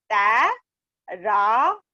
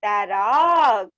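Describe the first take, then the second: First: "तै... रा... क" slowly with long gaps; syllable by syllable. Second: "तैराक" stretched out whole, falling at the end; joined word. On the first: Teacher asking all to repeat, "तै - रा - क" split. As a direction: break "तैराक" into drawn-out pieces. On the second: Teacher asking all to repeat, "तैराक" joined and drawn out. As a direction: blend "तैराक" into one long word. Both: Shown as a demonstration. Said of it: "मेरे साथ साथ बोलिए सभी".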